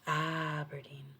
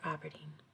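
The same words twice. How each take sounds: First: The first syllable carries strong stress. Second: The first syllable carries no strong stress. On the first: This is how an American says it. "they really put the enunciation on the A" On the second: This is how Scottish people say it. "we don't put enunciation on the A"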